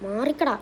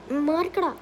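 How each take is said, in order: First: Said in the usual way. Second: മാറിക്കടാ in a higher put-on monster voice. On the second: Shown as a demonstration. Hulk orders people off the plane, put-on monster voice.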